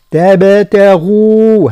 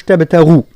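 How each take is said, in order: First: تبتغوا slow, light ta, bounced ba; correct tajweed. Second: Said in the usual way. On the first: Shown as a demonstration. Teacher shows the right تبتغوا. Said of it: "هكذا". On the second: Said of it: "مش".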